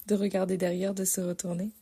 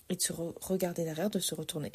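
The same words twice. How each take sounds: First: De regarder derrière, de se retourner, said louder and more deliberately; clear repeat. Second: Said in the usual way. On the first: Shown as a demonstration. Correcting her slip for viewers, firm restatement. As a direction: correct the slip with careful emphasis. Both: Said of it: "vous avez pu m'entendre".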